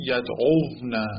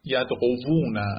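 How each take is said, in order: First: یدعوونه with v closing the middle syllable; reduced form yad'ovna. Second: Slow یدعوونه as yad-o-vu-na; original form yad'ovuna. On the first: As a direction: say یدعوونه as yad-ov-na. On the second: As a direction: stretch out یدعوونه with a separate vu syllable. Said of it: "یه مثال دیگه". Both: Shown as a demonstration.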